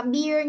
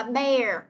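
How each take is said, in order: First: "beer" said with an ee vowel like beer; wrong vowel beer. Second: "bear" said slowly with an open eh vowel, like bare; correct bear. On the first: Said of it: "Chúng ta sẽ không đọc là beer nha". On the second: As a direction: model "bear" clearly and slowly. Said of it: "Chúng ta đọc là bear". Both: Shown as a demonstration.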